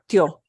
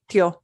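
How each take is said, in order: No difference in how they are said.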